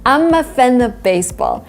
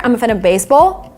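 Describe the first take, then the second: First: The sentence is spoken at a normal speed. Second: The sentence is spoken very quickly and connected.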